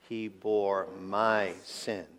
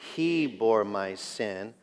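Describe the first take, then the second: First: The word 'sin' carries the main stress. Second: The word 'he' carries the main stress. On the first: It was my own sin that was borne. "with the emphasis on the last" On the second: It was he, and no one else, who bore it. "Let's say it with the emphasis on he"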